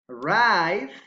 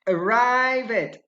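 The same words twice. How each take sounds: First: The ending adds no extra syllable. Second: The ending is an extra syllable. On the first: The speaker calls it right. "Those are correct" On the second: The speaker calls it wrong.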